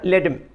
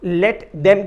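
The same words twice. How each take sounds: First: The word 'them' is reduced to 'em'. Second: The word 'them' is said in full. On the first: The speaker calls it wrong. "देम के लिए एम" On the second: The speaker calls it right. "Let देम की जगह"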